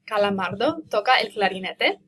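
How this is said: The voice rises at the end. It asks a question. "All I did was make my voice rise at the end of the sentence"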